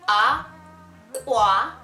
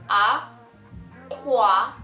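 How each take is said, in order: The two takes are said the same way.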